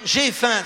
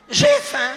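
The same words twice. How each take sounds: First: Said in the usual way. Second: Very high, louder hammed-up whine of hunger; mock hungry man. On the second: Shown as a demonstration. Husband announcing he is hungry, hammed-up high louder whine. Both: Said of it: "ça veut dire quoi?".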